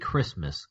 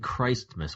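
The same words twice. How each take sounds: First: The T sound in the middle is dropped. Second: The T sound in the middle is pronounced. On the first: "We don't even pronounce the T" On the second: "we don't say Christmas"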